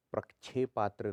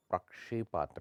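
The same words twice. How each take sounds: First: प्रक्षेपात्र said as prak-chhepatra; chh for sh. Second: Said in the usual way. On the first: Shown as a demonstration. Teacher shows the error, प्रक्षेपात्र with chh. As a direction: put chh inside प्रक्षेपात्र. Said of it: "नहीं होता". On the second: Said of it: "होता है".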